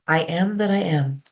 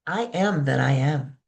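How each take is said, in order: First: It is spoken in an ordinary speaking voice. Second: It is spoken with strong, intense feeling. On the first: "I will say them in my normal voice" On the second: "and then I'll say them with lots of feelings"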